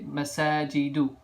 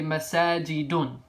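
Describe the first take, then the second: First: The word ends on a vowel, no n. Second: The word ends with an added n sound. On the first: The speaker calls it right. "you always have to just say masajidu" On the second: The speaker calls it wrong. "you would never say masajidun"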